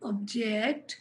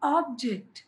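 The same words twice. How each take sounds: First: The stress is on the second syllable. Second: The stress is on the first syllable. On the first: It is a verb. "వెర్బా నౌనా చూడండి" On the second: It is a noun. "దాన్ని బట్టి నా stress మారింది"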